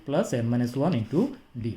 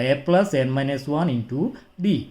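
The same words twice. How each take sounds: First: Formula repeated slowly and softer; slow, softer recap of the formula to memorise. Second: Formula read out slowly, term by term; a teacher dictating a formula, very slow; slow dictation. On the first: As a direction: repeat it gently so they memorise it. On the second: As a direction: spell the formula out slowly for students to copy. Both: Shown as a demonstration. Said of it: "এই সূত্রটা একটু মুখস্থ করে ফেলতে হবে".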